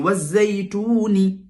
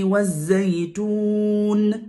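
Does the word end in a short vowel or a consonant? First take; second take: vowel; consonant. First: The word ends with a short i vowel. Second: The word ends on a held consonant. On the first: The reading continues without stopping. "C'est kasra" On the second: The reciter stops at the end of the verse. "on la remplace euh, par une soukoun"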